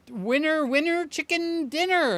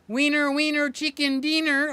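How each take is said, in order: First: It is said in the speaker's ordinary accent. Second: It is said in a put-on Mexican accent. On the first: "Sly says I don't say it right" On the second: "I gotta say it like the good old Mexican"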